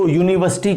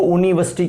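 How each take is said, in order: First: Said in the usual way. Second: यूनिवर्सिटी said with a bare "oo" start, no y glide; deliberate mispronunciation. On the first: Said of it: "इसको यूनिवर्सिटी क्यों बोलते हैं". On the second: Shown as a demonstration. Teacher asking why it isn't said so, यूनिवर्सिटी mispronounced as "ooniversity". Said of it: "क्यों नहीं बोलते".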